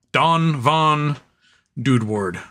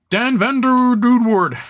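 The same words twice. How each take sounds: First: "Don Von Dudeward" with open AH vowels; "Don Von Dudeward" in a settled, falling tune; measured name reading. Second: High, showy "Dan Van Der Dudeward"; playful name announcement. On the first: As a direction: say "Don Von" slowly as DAHN VAHN, dropping on "Dudeward". Says the name again differently. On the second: Reads a donor name with flourish. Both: Real, not acted.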